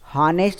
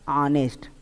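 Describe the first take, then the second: First: The word begins with an h sound. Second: The word begins with a vowel sound. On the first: The speaker calls it wrong. "हॉनेस्ट मत पढ़िएगा" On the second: The speaker calls it right. "इसमें आपका एच silent होता है"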